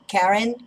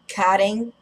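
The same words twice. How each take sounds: First: The name is attempted with English pronunciation. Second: The name is said with Portuguese pronunciation. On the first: "I can't pronounce it in English" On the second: "Karen is how we would say in Portuguese"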